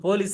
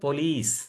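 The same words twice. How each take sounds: First: The first syllable has a full, strong vowel. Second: The first syllable is soft and reduced. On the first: The speaker calls it wrong. "நம்ம வந்து போலீஸ் தான் சொல்றோம்" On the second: The speaker calls it right. "ஆனா actual pronunciation வந்து போலீஸ்"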